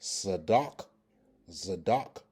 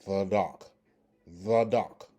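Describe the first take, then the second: First: Zadok with a buzzed z opening, stress on the second syllable; pronunciation demo. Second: Zadok opened with a voiced th, like "thadok"; alternative pronunciation. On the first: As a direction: say Zadok slowly and distinctly, starting on z. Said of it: "this word is pronounced". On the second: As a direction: model Zadok with th replacing the z. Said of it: "has the alternative, uh, pronunciation". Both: Shown as a demonstration.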